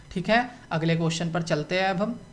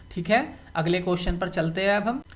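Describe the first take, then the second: Both takes have the same delivery.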